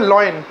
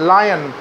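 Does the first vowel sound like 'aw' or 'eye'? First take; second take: aw; eye. First: The first vowel sounds like 'aw'. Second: The first vowel sounds like 'eye'. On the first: The speaker calls it wrong. "लॉयन जब मैं बोलता हूँ तो मैं गलत बोल रहा हूँ" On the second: The speaker calls it right. "L for लायन बोलते हैं"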